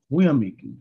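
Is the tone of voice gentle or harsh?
gentle. The voice sounds calm and gentle. The speaker is prompted to reflect. The speaker calls it right. "במקום בקול הזה, הוא היה בא ואומר"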